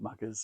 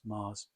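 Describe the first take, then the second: First: The name is said with a G sound. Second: The name is said with no G sound. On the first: The speaker calls it wrong. "not Maggers" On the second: The speaker calls it right. "it's Mars"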